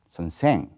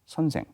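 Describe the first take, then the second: First: The stress is on the second syllable. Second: Neither syllable is stressed. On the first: This is how the upper east region says it. "they accent on the second syllables in it" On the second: This is how the capital region says it. "we do not add for any accent in it"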